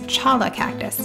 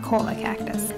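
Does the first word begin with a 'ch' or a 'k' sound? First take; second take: ch; k. First: The first word begins with a 'ch' sound. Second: The first word begins with a 'k' sound. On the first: The speaker calls it right. "It's chala cactus" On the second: The speaker calls it wrong. "not cola cactus"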